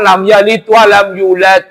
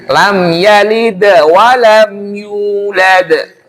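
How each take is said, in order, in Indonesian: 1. Kedua bunyi d berhenti datar tanpa pantulan. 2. Kedua bunyi d diakhiri dengan pantulan bergema. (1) "Yang banyak kan" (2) "Kan dalnya dua itu. Kolkolah semua"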